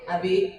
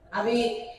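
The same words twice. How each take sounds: First: The call is at a normal pitch. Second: The call is somewhat higher in pitch. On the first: This is the first call. "satu kali itu manggil" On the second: The first call went unheard. "panggilan kedua suaranya naik setengah oktav"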